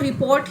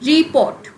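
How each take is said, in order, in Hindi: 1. Stress दूसरे syllable पर है। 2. स्ट्रेस पहले सिलेबल पर है। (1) "हम जनरली इसको रिपोर्ट ही साउंड करते हैं" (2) "अगर हमें नहीं पता होता तो शायद हम रिपोर्ट ऐसे भी बोल सकते थे उसको"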